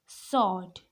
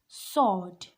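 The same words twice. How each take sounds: No difference in how they are said.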